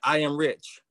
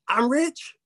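First: It is a forceful, flat statement. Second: It is a surprised, questioning exclamation. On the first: It is being pushed onto the mind by force. The speaker calls it wrong. "that's forceful" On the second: It is wondering, delighted news just received. The speaker calls it right. "put a question mark at the end. ... See how that goes in easier?"

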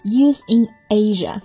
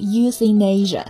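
First: The three words are said separately. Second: The three words are linked together smoothly.

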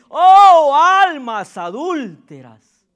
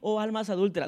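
First: It is exclaimed strongly and forcefully. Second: It is said flatly, without force.

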